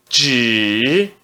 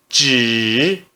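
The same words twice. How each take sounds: The two takes are said the same way.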